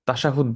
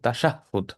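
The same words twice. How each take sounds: First: The middle h sound is short and single. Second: The middle h sound is held and doubled. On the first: The speaker calls it wrong. "তো আমরা অনেক সময় এটাকে আহ তাশাহুদ বলি, তো তাশাহুদ ব- শব্দটা ভুল" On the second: The speaker calls it right. "বলতে হবে তাশাহুদ। এখানে যেহেতু সাদ্দা আছে"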